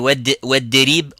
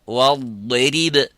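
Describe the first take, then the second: First: The consonant is a plain light d. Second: The consonant is a heavy emphatic dad. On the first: The speaker calls it wrong. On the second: The speaker calls it right.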